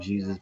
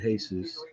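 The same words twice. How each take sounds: First: The name is said the English way. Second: The name is said the Spanish way. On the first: "spell the name Jesus" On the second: "they pronounce it Jesus"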